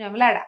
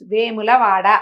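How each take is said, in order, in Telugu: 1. పేరు కుదించి అంటారు, మూడు అక్షరాలు. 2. పేరు పూర్తిగా అంటారు, నాలుగు అక్షరాలు. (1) "కొంచెం వెములాడ అంటారు" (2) "వేములవాడ అని అలా ఏం ప్రొనౌన్స్ చేయరు కదా"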